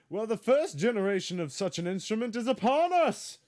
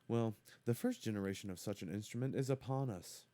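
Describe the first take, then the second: First: It is read in an excited, energetic way. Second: It is read in a flat, plain way. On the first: The speaker calls it right. "There's an exclamation point, so it has to be read like that" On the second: The speaker calls it wrong. "I have to read that differently"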